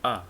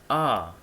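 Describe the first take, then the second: First: The word is said with a reduced vowel. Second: The word is said with a full vowel. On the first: "In a weak form, we pronounce a" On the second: "in a strong form, we pronounce are"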